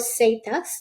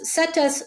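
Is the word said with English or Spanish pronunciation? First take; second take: Spanish; English. First: It is said with Spanish pronunciation. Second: It is said with English pronunciation.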